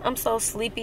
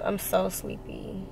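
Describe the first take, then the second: First: Said in the usual way. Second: Slow, softer drowsy murmur; sleepy. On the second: Real, not acted. Tired vlogger home late, softer and slower, sleepy. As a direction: let it drag out, half asleep.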